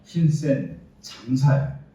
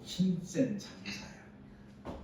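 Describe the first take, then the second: First: Mighty warrior call. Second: Hushed slow address. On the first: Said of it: "이렇게 얘기합니다". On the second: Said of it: "이렇게 부른 것도 아니고". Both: Acted.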